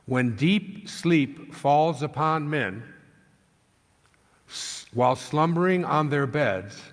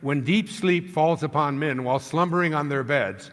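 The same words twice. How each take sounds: First: It is read at a slower pace. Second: It is read at a fast pace. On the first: The speaker calls it right. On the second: The speaker calls it wrong.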